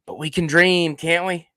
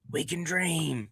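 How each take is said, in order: First: Said in the usual way. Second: "We can dream" dropped much softer, like a dreamy echo; dreamy hushed echo of a wish. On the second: Pretend. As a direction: breathe "We can dream" softly to yourself. Repeats the phrase, then hushes it.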